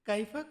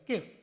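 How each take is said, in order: First: The word is said in full with two syllables. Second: The word is shortened to one syllable, kef. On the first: This is the formal full form. "কাইফা কমই বলে" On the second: This is the everyday spoken form. "কাইফাকে অনেক সময় কেফ উচ্চারণ করে"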